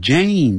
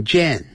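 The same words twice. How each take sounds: First: "Jane" with a long A glide; correct pronunciation of "Jane". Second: "Jane" with a short E, like "jen"; wrong pronunciation of "Jane". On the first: Teacher showing students how to read the name, long-vowel "Jane". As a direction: draw out the "ay" in "Jane". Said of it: "念成Jane". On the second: Teacher warning students off a misreading, short-vowel "Jane". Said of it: "不要念成Jane". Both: Shown as a demonstration.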